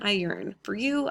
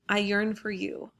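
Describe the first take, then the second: First: There is a pause between yearn and for you. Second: Yearn and for you run on without a pause. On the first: The writer longs for other men, not the addressee. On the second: The writer longs for the addressee.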